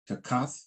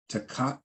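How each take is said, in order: First: Takath said with a soft TH at the end; TH variant. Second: Takat said with a plain hard T at the end; hard T variant. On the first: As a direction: end takath on a breathy TH, no hard T. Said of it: "it's a T H sound". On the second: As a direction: end takat on a crisp T sound. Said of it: "it's more like a T sound". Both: Shown as a demonstration.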